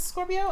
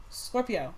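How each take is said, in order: First: High stretched Scorpio. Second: Said in the usual way. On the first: Shown as a demonstration. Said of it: "Give me a chance". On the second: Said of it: "seriously though".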